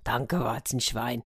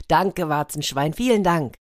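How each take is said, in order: First: Soft, slow mumble to oneself; hushed, contented muttering; murmured thanks. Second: Glad thanks, rising at the end; pleased, lively gratitude; overjoyed thanks. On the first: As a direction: murmur your thanks under your breath. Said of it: "und murmelte". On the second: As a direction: thank a helper happily. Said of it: "der Leopard war überglücklich". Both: A narrator's reading.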